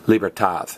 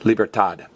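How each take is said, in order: First: The final consonant sounds like English th. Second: The final consonant is a plain d sound. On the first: "The other half pronounce the D more as a T H" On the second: "About half of them pronounce the D as a D"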